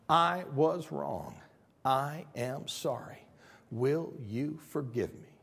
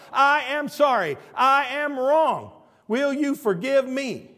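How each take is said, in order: First: Word by word, at half speed; slow, measured apology. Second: High, loud, emphatic word by word; shouted apology. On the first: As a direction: spell out the apology slowly, without shouting. First take of the simple words. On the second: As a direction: proclaim the apology slowly at full volume. Repeats the words at full force. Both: Shown as a demonstration.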